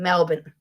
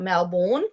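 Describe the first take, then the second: First: The last syllable is a reduced 'bin' sound. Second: The last syllable is a full 'born' sound. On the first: The speaker calls it right. "We pronounce it as bin" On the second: The speaker calls it wrong. "It is not Melbourne, as people like to say. ... it's not pronounced born"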